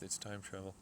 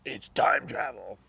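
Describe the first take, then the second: First: Said in the usual way. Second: Loud, slow, drawn-out announcement; excited exclamation. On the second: Real, not acted. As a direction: proclaim "It's time travel!" loudly and slowly, stretching "time". Excited reveal in game.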